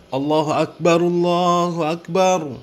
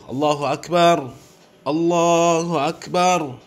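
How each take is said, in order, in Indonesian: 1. Vokal akhir dibunyikan, menyambung kedua frasa. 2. Setiap frasa berhenti, dengan jeda yang jelas di antaranya. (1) "Kalau memang mau diwasol ya, harokatnya harus dibaca" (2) "kalau memang mau diwakofkan, kasih jeda waktu"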